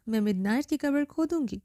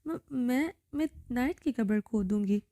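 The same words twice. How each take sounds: First: A lightly raised, narrated scream; understated shout; mild mock scream. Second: A touch of a stifled, stammered admission; mildly choked, forced out; understated choking fear; choked, faltering voice. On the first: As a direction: call it out with a hint of force. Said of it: "پوری قوت لگا کر چیخی". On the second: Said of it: "گھٹی گھٹی آواز میں وہ مشکل بولی". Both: A narrator's reading.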